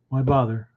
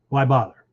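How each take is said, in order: First: It sounds resigned and defeated. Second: It sounds like an insistent, obvious rhetorical question. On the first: There is no point in trying. The speaker calls it wrong. "with a different inflection... There's nothing you can do about it" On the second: The task obviously needs to be done. The speaker calls it right. "it was a rhetorical question... obvious that it needed to be done"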